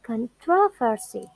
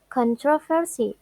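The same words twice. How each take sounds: First: Con-TRO-versy, peak on TRO in controversy; stress on second syllable. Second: CON-troversy, weight on CON in controversy; stress on first syllable. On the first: Teacher contrasting two accepted stresses, TRO stressed. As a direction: hit TRO, let "versy" fall in controversy. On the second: Teacher contrasting two accepted stresses, CON stressed. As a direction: lean on CON at the start of controversy. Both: Shown as a demonstration. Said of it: "Another example is".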